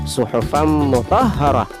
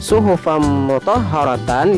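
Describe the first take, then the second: First: The last word ends on a soft h sound. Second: The last word ends with a full -tan ending.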